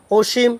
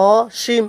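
First: অসীম starting on a closed o, "oshim"; closed-vowel pronunciation. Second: অসীম starting on an open "aw", "aw-shim"; correct pronunciation. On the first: Teacher sets up the question, অসীম said "oshim". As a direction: round the first vowel of অসীম to o. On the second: Teacher answers the question, অসীম pronounced "aw-shim". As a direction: open up and separate the first vowel of অসীম. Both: Shown as a demonstration. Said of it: "এটা উচ্চারণটা হবে কি".

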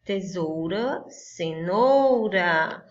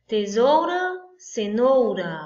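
First: Tesoura, cenoura drawn out slowly, cenoura longest; slow stretched. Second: Tesoura, cenoura called out high and loud. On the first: Teacher letting the kids hear the rhyme, slow and drawn out. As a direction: linger slowly on the rhyming endings. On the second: Teacher calling out the rhyme to the class, high and loud. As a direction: announce the rhyming pair loudly. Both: Shown as a demonstration. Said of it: "Tá correto?".

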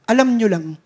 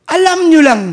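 First: Said in the usual way. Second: "Alam nyo lang" higher and louder, punching nyo; emphatic repeat. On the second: Shown as a demonstration. (idiniin na "Alam nyo lang")

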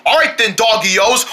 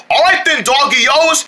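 First: Said in the usual way. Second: Excited shout. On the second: Shown as a demonstration. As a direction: shout it out with hype.

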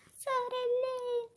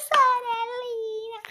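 First: Calling little sister. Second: High, loud, drawn-out sorellina; loud calling. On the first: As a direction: call sorellina in a high voice. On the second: Calling the little sister, loud high cry. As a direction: belt out sorellina, high and stretched. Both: Pretend.

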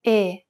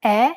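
First: "E" as a narrow, closed ay without glide. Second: "E" as an open eh, mouth wide. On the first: Italian teacher compares the two vowels, closed E. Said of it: "followed by a closed E". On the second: Italian teacher compares the two vowels, open E. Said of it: "Compare the open E". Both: Shown as a demonstration.

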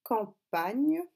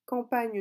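First: Campagne in two separated, louder syllables. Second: Said in the usual way. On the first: Shown as a demonstration. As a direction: break campagne into cam, then pagne. Dictating word before writing it. (campagne bien découpé en syllabes)

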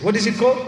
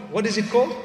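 First: Louder, pushing the crowd to answer; louder prompting question. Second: Said in the usual way. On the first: Shown as a demonstration. Preacher prompting the congregation, louder question. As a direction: call it out again, louder, to draw a reply. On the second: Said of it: "An accident".

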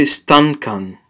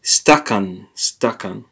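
First: Stankan, with an extra n sound before the k; stankan, slipping an n into the middle; wrong pronunciation. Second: Stakan, no n, a clean st-a-k-a-n; stakan, careful corrected form; correct pronunciation. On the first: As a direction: say stankan the mistaken way. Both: Shown as a demonstration. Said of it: "That's the real way to say it".

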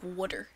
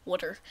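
First: "Water." with a rounded oo-like vowel, wʊtə; imitating the teacher's "Water.". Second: Said in the usual way. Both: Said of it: "My English teacher says it as water".

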